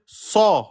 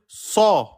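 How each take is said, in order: First: The syllable is heavy, with a back O vowel. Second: The same.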